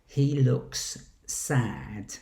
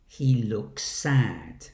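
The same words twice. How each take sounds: First: Slowly, with two separate S sounds. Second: Naturally, with one long merged S sound. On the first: "I've slowed that down there, and there are two S sounds" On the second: "There's only one long S sound"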